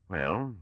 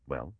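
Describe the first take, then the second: First: Barr's grim answer to Mallow's prompt; grim retort. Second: Soft, gentle prompt with a rising tune; gently urging. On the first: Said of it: "came the grim retort". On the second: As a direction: coax him to go on, gently. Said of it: "urged Mallow gently". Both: A narrator's reading.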